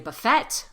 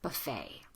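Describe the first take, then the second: First: The word ends with a T sound. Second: The word ends with a long A sound. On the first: The speaker calls it wrong. "We don't say buffet" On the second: The speaker calls it right. "pronounce it as an A"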